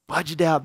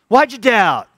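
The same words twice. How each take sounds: First: It sounds warm and encouraging. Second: It sounds harsh and scolding. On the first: The listener is praised for nearly succeeding. The speaker calls it right. "dude, come here. You almost made it" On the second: The listener is being rebuked for failing. The speaker calls it wrong. "Jesus scolded him. Jesus just called him out"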